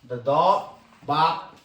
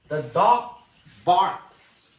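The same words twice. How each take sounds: First: The K sound in barks is weak. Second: The K sound in barks is strongly pronounced. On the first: The speaker calls it wrong. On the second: The speaker calls it right. "stress the sound of this K"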